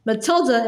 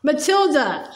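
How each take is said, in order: First: Said in the usual way. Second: Roaring name. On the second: Acted. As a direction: call "Matilda" out like a mild roar. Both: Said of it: "she roared".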